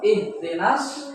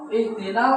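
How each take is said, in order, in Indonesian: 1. Kata ini berakhir dengan bunyi S ganda. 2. Kata ini berakhir dengan bunyi L yang jelas. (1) "Langsung ihdinas" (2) "ihdinal sirah bukan"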